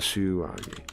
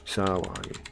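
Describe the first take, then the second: First: The first vowel is an 'u' sound. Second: The first vowel is an 'a' sound. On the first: The speaker calls it wrong. "Not Suwagi" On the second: The speaker calls it right. "It's A. It's Sawagi"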